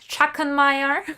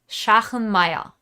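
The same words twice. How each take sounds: First: The name is pronounced with English sounds. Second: The name is pronounced with German sounds. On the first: The speaker calls it wrong. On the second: The speaker calls it right. "the way you pronounce the name, if you're German"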